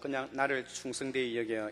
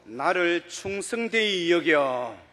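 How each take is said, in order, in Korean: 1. 이 구절은 감정 없이 무덤덤하게 말합니다. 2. 이 구절은 감정을 더해서 말합니다. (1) "그냥 ... 이것이 아니고" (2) "감정을 조금 넣어서"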